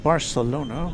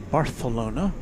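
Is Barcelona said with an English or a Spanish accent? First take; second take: English; Spanish. First: It is said with an English pronunciation. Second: It is said with a Castilian Spanish pronunciation.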